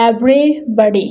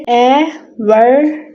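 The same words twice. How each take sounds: First: Said in the usual way. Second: "Everybody" chopped into slow, evenly spaced syllables with pauses; split into syllables. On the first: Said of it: "everybody के five syllable हैं". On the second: Shown as a demonstration. Teacher showing how a word has five syllables, split into syllables. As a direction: say "Everybody" one syllable at a time, slowly. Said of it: "कैसे?".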